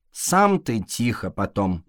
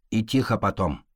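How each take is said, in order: First: Slow retort, stress on сам; snapping back. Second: Said in the usual way. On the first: A narrator's reading. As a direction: snap back at the fox. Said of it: "огрызнулся кот".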